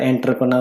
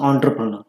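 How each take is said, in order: First: The word begins with an 'en' sound. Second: The word begins with an 'on' sound. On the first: The speaker calls it wrong. "चुकीचा उच्चार करतात एंटरप्रनर म्हणतात" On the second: The speaker calls it right. "What is the real pronunciation"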